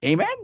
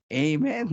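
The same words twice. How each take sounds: First: Amen? pitched high with a rising question; mock preacher prompt. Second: Said in the usual way. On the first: Preacher baiting members for a reply, high rising amen. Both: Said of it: "Sabi ng mga membro".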